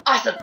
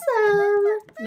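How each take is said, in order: First: Said in the usual way. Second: High, loud squeaked exclamation; squeaky voice. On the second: Real, not acted. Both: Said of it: "my voice just, like, squeaked like crazy".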